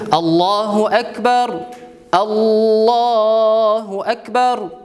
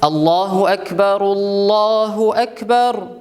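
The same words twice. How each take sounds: First: Each phrase stops, with a pause between them. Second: The phrases join, with 'u' ending the first. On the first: "То есть все отдельно говорить" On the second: "Можно соединить и поставить дамма"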